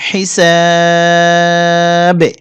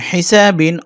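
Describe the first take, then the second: First: Very long "সা" in "হিসাবে", bouncing the final b; three-alif madd. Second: Said in the usual way. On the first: Shown as a demonstration. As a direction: stretch "হিসাবে" on the middle vowel, stop with qalqalah. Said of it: "এখানে টানতে হবে তিন আলিফ". ("হিসাবে"-র সা তিন আলিফ টেনে কলকলা) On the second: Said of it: "অকফ করবো আমরা".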